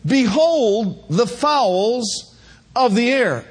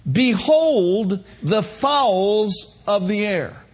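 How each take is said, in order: First: Slow, weighty repeat of the verse; drawn-out reading of holy writ; slow solemn verse; solemn scripture reading. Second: Slow, weighty scripture reading; slow solemn reading of scripture. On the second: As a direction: read it like holy writ, drawn out. Preacher reading scripture slowly. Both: Acted.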